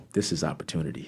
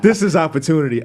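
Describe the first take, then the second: First: Murmuring a private plan; quiet realization. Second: Louder, proud and ready to go; announcing his big chance; excited declaration. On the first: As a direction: lower and softer, almost to himself with a laugh. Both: Retold or imitated. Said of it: "I said".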